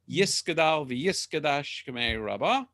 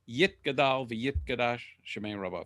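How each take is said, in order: First: It uses the Ashkenazi Hebrew pronunciation. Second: It uses the Sephardic Hebrew pronunciation.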